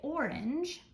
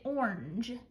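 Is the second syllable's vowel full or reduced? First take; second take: full; reduced. First: The second syllable has a full vowel. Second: The second syllable has a reduced vowel. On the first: "We don't usually say orange. We could" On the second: "but a lot of times we just say orange"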